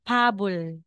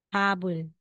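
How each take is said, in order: First: The middle consonant is a B sound. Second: The same.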